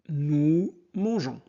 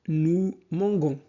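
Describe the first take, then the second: First: The verb has a soft zh sound. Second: The verb has a hard g sound. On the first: The speaker calls it right. "la bonne réponse est nous mangeons" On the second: The speaker calls it wrong. "sans ce e, on prononcerait g"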